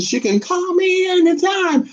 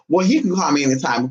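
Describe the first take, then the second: First: High, sing-song flirty invite; flirty tease. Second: Said in the usual way. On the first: Real, not acted. Host flirting with a viewer in the chat, high sing-song. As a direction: purr it like a come-on.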